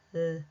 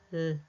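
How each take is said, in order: Both takes have the same delivery.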